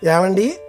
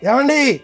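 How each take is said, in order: First: The call is said gently and pleasantly. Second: The call is said sharply and quickly. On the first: The call brings happiness. "ఏమండి అన్న పిలుపు ఆనందం" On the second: The call startles the listener. "ఉలిక్కి పడతాం"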